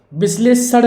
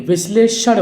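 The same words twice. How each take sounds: First: विश्लेषण with a dental "s", bis-le-san; higher-pitched विश्लेषण with "s" for ष; plain s for sh. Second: विश्लेषण with a clear "sha", vish-le-shan; sh sound for ष. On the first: Teacher showing the mistake, विश्लेषण as "bis-le-san". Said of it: "विश्लेषण नहीं". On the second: Teacher correcting the word, विश्लेषण as "vish-le-shan". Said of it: "विश्लेषण होना चाहिए". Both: Shown as a demonstration.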